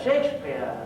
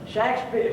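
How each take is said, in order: First: The name is said with a British pronunciation. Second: The name is said with a non-British pronunciation.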